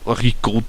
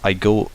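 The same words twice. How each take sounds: First: It is said in a put-on imitation voice. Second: It is said in the speaker's natural voice.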